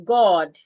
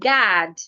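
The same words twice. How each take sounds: First: It is said with a British accent. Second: It is said with an American accent. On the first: "A British person will say God" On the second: "An American person will say God"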